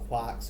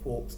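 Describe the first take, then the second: First: It is said with an English pronunciation. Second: It is said with an American pronunciation. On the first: "depending on whether you're English" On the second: "or American"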